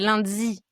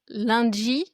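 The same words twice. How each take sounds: First: The d sounds close to dz. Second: The d sounds close to dj. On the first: "au Québec, c'est lundi, plus avec un z" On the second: "En France, ça va être lundi, plus avec un dja"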